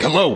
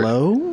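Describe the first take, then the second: First: It is said in a curt, brusque way. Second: It is said like a question.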